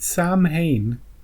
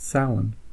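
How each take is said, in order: First: It is read as spelled, like Sam Hain. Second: It is not read as spelled. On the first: The speaker calls it wrong. "don't don't pronounce it Sam Hain" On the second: The speaker calls it right. "it's pronounced Samhain"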